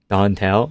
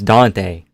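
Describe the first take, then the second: First: The name ends with an L sound. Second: The name ends without an L sound. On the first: The speaker calls it wrong. "There's no L, bro. Don't mispronounce his name" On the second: The speaker calls it right. "it's Dante. There's no L"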